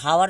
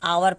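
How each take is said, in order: First: The word begins with an h sound. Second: The word begins directly with a vowel. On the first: The speaker calls it wrong. "इसे हावर नहीं पढ़ते" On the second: The speaker calls it right. "आवर पढ़ते हैं"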